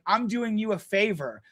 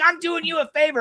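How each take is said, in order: First: Said in the usual way. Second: High mocking voice of the other driver; high mock of the driver saying he did a favor. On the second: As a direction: sneer it back in his voice.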